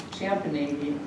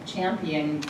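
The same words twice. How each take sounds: The two takes are said the same way.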